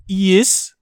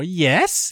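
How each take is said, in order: First: "yes" said as "yiss", higher and louder; guessed pronunciation. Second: "yes" said as the everyday word, questioning; ordinary-word pronunciation. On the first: Host voices people guessing the title, "yes" as "yiss". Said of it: "And they'll be like". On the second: Host voices people guessing the title, "yes" with plain e. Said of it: "Is it called yes?". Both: Retold or imitated.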